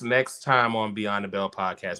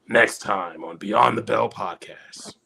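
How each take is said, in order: First: It is said in his normal voice. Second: It is said in a Dragon Ball Z announcer voice.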